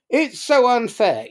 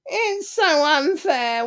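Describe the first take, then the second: First: Higher, louder quick "so unfair"; mock complaint. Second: High, slow whine on so; whiny victim. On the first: Speaker voicing a quarrel, second take, louder. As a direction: snap it out in a quarrel. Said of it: "people just swap positions". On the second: Retold or imitated. Speaker voicing the victim, first take, slow whine. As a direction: draw out so unfair in self-pity. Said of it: "The victim's voice sounds like".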